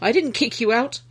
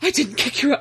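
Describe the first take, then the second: First: It is said flatly, without drama. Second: It is said with heavy dramatic emotion.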